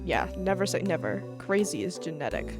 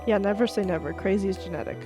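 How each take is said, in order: First: The voice is faint beneath the background music. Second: The voice is clearly audible over the music. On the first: The speaker calls it wrong. "You can barely hear me" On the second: The speaker calls it right. "that's fine"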